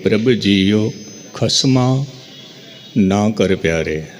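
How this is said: Na is split off from khasma by a break. The speaker calls it wrong.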